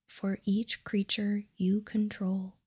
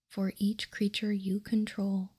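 No difference in how they are said.

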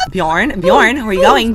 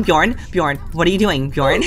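First: Calling out. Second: Said in the usual way. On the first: Pretend. Player calling after Bjorn as he walks away, loud call. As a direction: call the name out louder with a rise.

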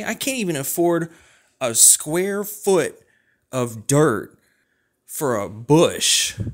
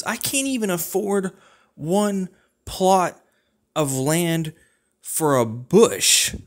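First: High, slow, punched words, ending louder and slow on "for a bush"; emphatic complaint. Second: High-pitched whine rising to a louder, slow drawn-out end; whiny complaint. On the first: Repeating the land complaint to a friend, slow emphatic punching. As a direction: hammer each word out, slower and louder. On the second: Ranting to a friend about unaffordable land, high-pitched whine. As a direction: whine it up high, then lean hard on the last words. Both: Acted.

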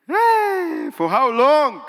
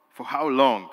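First: High loud plea; anguished cry. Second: Said in the usual way. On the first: Retold or imitated. Preacher crying out to the Lord, high and loud. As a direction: cry out to heaven in longing.

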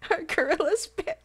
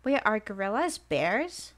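First: Laughing question. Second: Said in the usual way. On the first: Real, not acted.

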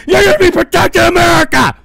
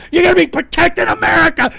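First: Cracking furious scream. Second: Fast, rising shout; furious yell. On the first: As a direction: voice cracking, fast and loud. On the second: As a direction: fire it at them. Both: Real, not acted. Escalating yell at viewer.

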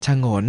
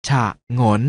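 First: Said in the usual way. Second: ฉะงน split into ฉะ and งน; short ฉะ, clear gap, then งน; syllable by syllable. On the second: Shown as a demonstration. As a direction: sound out ฉะงน in two beats. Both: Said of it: "อ่านว่า".

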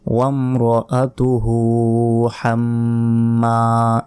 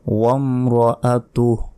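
First: ওয়ামরাআতুহু with a full final হু, হাম্মা nasal; continuing form. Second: ওয়ামরাআতুহ ending with a silent হ; stopping form. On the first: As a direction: flow on with a long হু. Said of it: "তাহলে বলতে হবে". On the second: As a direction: stop on the হ. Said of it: "থামি সেক্ষেত্রে বলতে হবে". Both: Shown as a demonstration.

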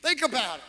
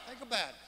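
First: Said in the usual way. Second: "Think about it" dropped to a near hush; much softer repeat. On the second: Shown as a demonstration. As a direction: softly drive the point home.

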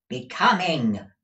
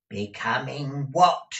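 First: Raised, loud, falling answer; emphatic repeat. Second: Raised, sharp rising question. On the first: Gride repeating a word for Peg, loud emphasis. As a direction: repeat it firmly for the deaf. Repeating louder for deaf listener. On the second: Deaf Peg querying her master, sharp. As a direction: demand it sharply. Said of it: "said Peg sharply". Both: A narrator's reading.

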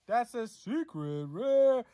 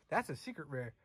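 First: Drawn-out excited. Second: Quiet. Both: Real, not acted.

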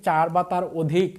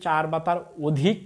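Both takes have the same delivery.

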